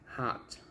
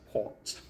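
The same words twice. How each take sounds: First: The vowel is an open ah sound. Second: The vowel is a rounded oh sound. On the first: "when I pronounce it the American way" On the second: "when I pronounce it like the British way"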